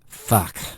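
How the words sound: It sounds displeased.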